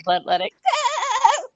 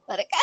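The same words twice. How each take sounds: First: Much higher, louder, slow bleating scream of let it go; screaming goat. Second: Said in the usual way. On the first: Retold or imitated. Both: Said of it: "a goat screaming".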